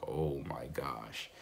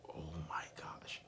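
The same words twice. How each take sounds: First: Slow, drawn-out "Oh my gosh", a bit softer and lower; dismayed realization. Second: Breathless whispered "Oh my gosh", almost no voice; shocked whisper. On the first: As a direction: sink into it as the mistake dawns. Finding the key in his pocket. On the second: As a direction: whisper it like a kid caught talking. Kids shocked hearing him speak Russian. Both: Retold or imitated.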